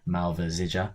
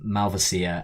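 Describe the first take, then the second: First: The name is said in a Croatian form. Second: The name is said in a non-Croatian form.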